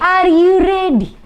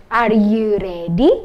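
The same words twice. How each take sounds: First: Higher, louder, slow rallying call; teacher hyping up the class. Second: Slow, drawn-out call to the class; teacher calling out slowly; slow question. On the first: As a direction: rouse the class with it. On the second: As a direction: ask it slowly, warming them up. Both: Shown as a demonstration.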